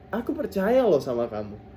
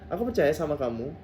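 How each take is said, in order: First: It is said in a warm, sincere tone. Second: It is said in a flat, ordinary tone.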